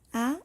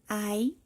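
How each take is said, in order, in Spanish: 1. No se oye ningún sonido i después de la vocal. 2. Un sonido i sigue a la vocal. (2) "no vamos a leer"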